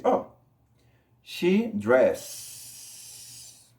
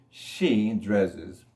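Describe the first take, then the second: First: "she dress" with a long hissing S at the end; "dress" drawn out on one endless S; wrong third person. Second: "dresses" in two syllables, DRESS-ez; low, careful "She dresses" ending in a voiced Z; extra syllable. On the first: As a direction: stretch the final S of "dress", adding no syllable. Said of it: "entonces no voy a decir". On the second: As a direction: add a short "ez" to the end of "dresses". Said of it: "se le agrega una sílaba extra". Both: Shown as a demonstration.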